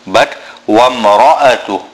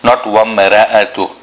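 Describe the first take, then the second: First: The ra is heavy, said with full mouth. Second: The ra is light, not full mouth. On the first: The speaker calls it right. "Ra will be full mouth" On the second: The speaker calls it wrong.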